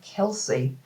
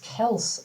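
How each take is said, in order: First: The name ends with an 'ee' sound. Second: The name ends with an 's' sound. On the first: The speaker calls it wrong. "everybody pronounces his name Kelsey" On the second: The speaker calls it right. "it's Kels"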